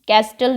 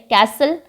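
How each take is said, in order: First: The middle t sound is pronounced. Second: The middle t sound is silent. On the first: The speaker calls it wrong. "कैस्टल नहीं बोलते हैं इसको" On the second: The speaker calls it right. "कैसल में टी silent है"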